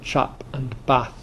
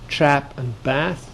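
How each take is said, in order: First: It is said in a Northern English accent. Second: It is said in an American accent.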